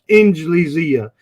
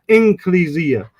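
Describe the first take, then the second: First: The consonant after n is a soft j. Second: The consonant after n is a k. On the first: "Some people pronounce it the Jim of the Arabs" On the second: "Some people put it with a kaf"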